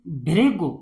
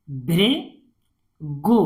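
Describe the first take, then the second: First: Said in the usual way. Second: "Bhrigu" slowly, with a pause before the last syllable. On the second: Shown as a demonstration. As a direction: split "Bhrigu" into two parts. Teacher sounds out, then blends. ("Bhrigu" को तोड़कर पढ़ना)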